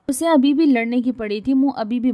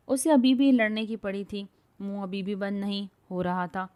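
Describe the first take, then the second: First: Narration read louder, bhi lifted; louder retake. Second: Said in the usual way. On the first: A narrator's reading. Narrator rereads the line louder, stressing بھی. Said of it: "repeated narration line, louder take". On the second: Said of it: "repeated narration line, first take".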